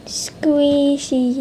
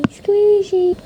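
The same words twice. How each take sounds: First: Said in the usual way. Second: Squeaky high. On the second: Acted. Word said twice differently.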